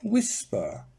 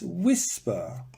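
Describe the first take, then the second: First: The stress is on the first syllable. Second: The same.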